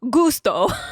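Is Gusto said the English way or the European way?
European. The word is said with a European pronunciation. "one of our favorite clients who's European pronounces it Gusto"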